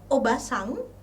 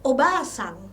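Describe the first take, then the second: First: The vowel after 'ob' is short. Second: The vowel after 'ob' is long. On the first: It means aunt. "vokal pendek" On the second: It means grandmother.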